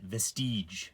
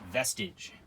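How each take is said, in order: First: The word ends with an 'eezh' sound. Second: The word ends with an 'idge' sound.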